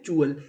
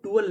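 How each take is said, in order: First: "चुअल" with a ch onset, pitched low; correct code pronunciation. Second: "टुअल" with a hard t; mistaken spelling pronunciation. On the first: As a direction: say "चुअल" low and firm, starting with ch. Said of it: "इसे क्या पढ़ते हैं". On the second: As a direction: say "टुअल", starting on a t, not ch. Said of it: "टुअल नहीं पढ़ते". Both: Shown as a demonstration.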